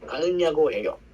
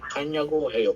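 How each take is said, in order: First: The first word is said in full, three syllables. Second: The first word is contracted to two syllables. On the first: It is the form found in books. "Or sa books" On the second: It is the more comfortable spoken form. "In short po niya"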